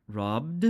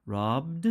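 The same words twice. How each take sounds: First: "robbed" again with a voiced d; teacher repeating "robbed"; ed as d repeated. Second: "Robbed" ending on a voiced d; teacher modelling "Robbed". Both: Shown as a demonstration. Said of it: "then we use d for E D".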